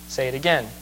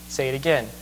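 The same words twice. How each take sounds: The two takes are said the same way.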